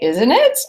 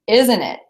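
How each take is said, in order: First: The pitch rises at the end. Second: The pitch falls at the end. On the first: The speaker calls it wrong. "So I don't say" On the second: The speaker calls it right. "your intonation goes down"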